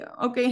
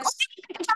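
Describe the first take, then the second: First: Said in the usual way. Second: Higher, softer mocking echo of okay; mocking mom's okay. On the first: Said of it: "when my mom scolds me and I'm like". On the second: Mom mimicking her kid's okay, mock echo. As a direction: throw the okay back at the kid, higher. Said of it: "he's like".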